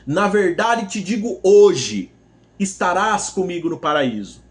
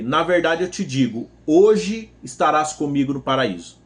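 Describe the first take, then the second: First: The pause comes after the word 'hoje'. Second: The pause comes before the word 'hoje'.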